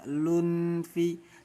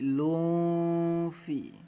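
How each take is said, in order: First: The n sound is pronounced fully and clearly. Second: The n sound is blurred into a nasal hum. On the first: The speaker calls it wrong. "jangan dibaca lunfi" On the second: The speaker calls it right. "tapi lufi. Dhammatainnya harus disamarkan"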